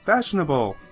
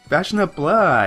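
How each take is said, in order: First: The ending is said the usual way. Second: The ending is said as a clear 'blah'. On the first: It is the standard way of saying it. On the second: It is the slang way people say it back home.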